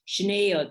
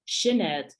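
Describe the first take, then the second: First: The stress is on the second syllable. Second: The stress is on the first syllable. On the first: This is how West Kerry speakers say it. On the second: This is how speakers outside West Kerry say it.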